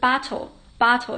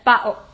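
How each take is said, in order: First: The t is fully pronounced, American-style. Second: The t is caught in the throat, British-style. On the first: "美腔就是battle，就是你会把它念出来" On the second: "这个就是音腔"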